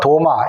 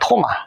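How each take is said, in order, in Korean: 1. 이름은 예사소리, 거센소리가 아닌 'd' 소리로 시작합니다. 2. 이름은 거센소리인 't' 소리로 시작합니다. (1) "실상은 도마도 아니고" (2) "토마예요"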